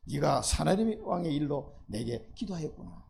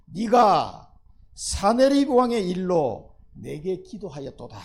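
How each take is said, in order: First: Tender slow rereading; gentler repeat. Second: Loud, very slow proclamation, stretching each word; solemn loud declaration; booming divine words. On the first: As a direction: let it land kindly, as God pleased. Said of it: "preacher repeats verse gently". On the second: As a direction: thunder it out as God's voice. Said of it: "네가 사네비, 사네립 왕의 일로". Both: Shown as a demonstration.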